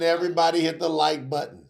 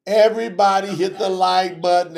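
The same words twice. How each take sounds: First: Said in the usual way. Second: Louder, higher call to everybody; emphatic louder appeal to viewers. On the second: Real, not acted. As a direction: push the viewers to act.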